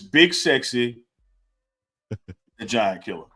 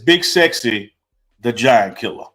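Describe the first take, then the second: First: A dramatic pause comes before "the Giant Killer". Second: It is said straight through without a pause.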